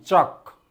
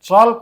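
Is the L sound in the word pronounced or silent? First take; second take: silent; pronounced. First: The L sound is silent. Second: The L sound is pronounced. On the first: The speaker calls it right. "एल silent रहउची" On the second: The speaker calls it wrong. "चल्क आमे कहिबा नै"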